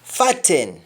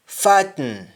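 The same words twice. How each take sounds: First: FATTEN with full "ten"; English-style vowel ending on FATTEN; English pronunciation. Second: Sung, FATTEN as "fat-n"; sung, Jamaican syllabic N in FATTEN; Jamaican humming. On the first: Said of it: "we don't say happen". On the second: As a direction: hum the end of FATTEN. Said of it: "That is harming". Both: Shown as a demonstration.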